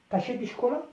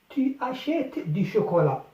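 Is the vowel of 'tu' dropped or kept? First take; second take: dropped; kept. First: The vowel of tu is dropped before achètes. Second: The vowel of tu is fully pronounced.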